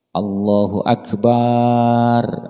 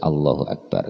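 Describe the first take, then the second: First: The vowel after the b is drawn out long. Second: The vowel after the b is short. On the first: The speaker calls it wrong. "enggak boleh. ... memanjangkan baknya di dalam lafal akbar" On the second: The speaker calls it right. "Harus Allahu Akbar"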